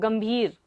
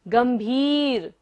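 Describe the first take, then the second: First: The second vowel is held short. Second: The second vowel is held long. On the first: The speaker calls it wrong. "छोटा नहीं लेना है" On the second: The speaker calls it right. "इसको आपको लंबा लेना है"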